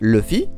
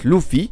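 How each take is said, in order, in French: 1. La première voyelle se prononce comme un 'e' français. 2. La première voyelle se prononce comme 'oo'. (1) "comme si le U se disait E" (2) "avec un OU"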